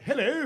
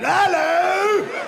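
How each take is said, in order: First: A nice, polite British accent. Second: A rough, exaggerated working-class British accent. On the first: A British person greets someone. "no matter how nice they sound" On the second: A non-British person mimics the accent. "we reply with Peaky Blinders on meth"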